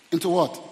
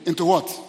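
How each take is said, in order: Both takes have the same delivery.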